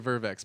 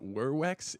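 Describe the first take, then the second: First: The word begins with a V sound. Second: The word begins with a W sound. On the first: The speaker calls it wrong. "I think I say it incorrectly" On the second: The speaker calls it right. "werwex is what I've been told"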